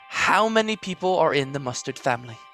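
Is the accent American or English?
English. It is spoken in an English accent. "I'm going to do it in classic English accent"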